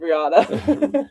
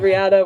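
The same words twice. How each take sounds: First: "Riata" drawn out with an open AH; own Spanish-style pronunciation. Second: "Riata" with the A of "cat"; the other owner's pronunciation. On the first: Joking about two mules' names, "Riata" with open AH. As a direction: say "Riata" slowly as ree-AH-tuh, amused. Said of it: "because he pronounces it differently". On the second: Joking about two mules' names, "Riata" with a cat-like A. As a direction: say "Riata" as ree-AT-uh. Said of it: "he pronounces it differently". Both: Shown as a demonstration.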